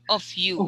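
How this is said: The pitch falls at the end. The speaker calls it wrong. "That's going down"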